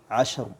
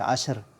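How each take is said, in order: First: The final r is pronounced heavy and full. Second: The final r is pronounced light and thin. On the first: The speaker calls it right. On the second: The speaker calls it wrong. "jangan dibaca ashr"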